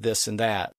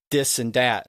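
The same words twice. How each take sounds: First: Said in the usual way. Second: "this and that" said as "dis and dat". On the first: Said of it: "instead of this and that". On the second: Shown as a demonstration. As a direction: start "this" and "that" on a D, not TH. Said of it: "instead of the T H sound".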